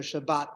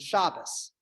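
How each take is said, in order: First: It ends with a T sound, non-Ashkenazi style. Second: It ends with an S sound, Ashkenazi style.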